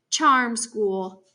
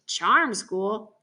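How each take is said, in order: First: Said in the usual way. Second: Questioning echo with a rising end; incredulous echo. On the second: A narrator's reading. Boy scoffs at hearing where Piper is, incredulous echo. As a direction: throw it back as a scoffing question. Boy echoes the answer in disbelief.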